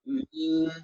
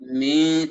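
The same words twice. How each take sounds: First: The syllable has no nasal hum. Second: The syllable carries an audible nasal hum. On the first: The speaker calls it right. "nah mati total" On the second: The speaker calls it wrong. "Tidak mi, tidak begitu"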